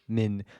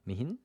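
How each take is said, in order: First: The H is silent, giving one short syllable. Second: The H sound is pronounced between two vowels. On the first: The speaker calls it right. "the silent H makes more sense" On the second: The speaker calls it wrong. "I'll pronounce it Mihin"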